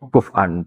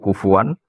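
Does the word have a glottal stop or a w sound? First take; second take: glottal stop; w sound. First: The middle consonant is a glottal stop. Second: The middle consonant is a w sound.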